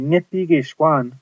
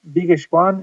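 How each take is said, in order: First: Every sound of 'nipi' is pronounced. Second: It is said fast, starting with a b. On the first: "you might think it would be Nipigishwan" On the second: "say it kind of fast, ... it just sounds like a B"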